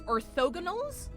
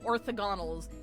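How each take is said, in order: First: The stress is on the second syllable. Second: The stress is on the first syllable. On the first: The speaker calls it right. "It's orthogonals, or orthogonals, kind of like Othello" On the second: The speaker calls it wrong. "I'm stressing the wrong one. I've been saying orthogonals"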